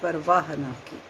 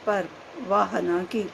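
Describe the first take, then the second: First: Par and vaah run together as one word. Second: Par and vaah are said as separate words. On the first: He never cared at all. "दो शब्दों को मिला दीजिए" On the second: He never said 'wow' in praise. "दो शब्दों को अलग अलग कर दीजिए"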